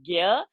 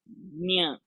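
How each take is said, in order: First: The syllable begins with a hard g sound. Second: The syllable begins with a soft palatal sound. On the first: The speaker calls it wrong. "you cannot say gya" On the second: The speaker calls it right. "It's nya"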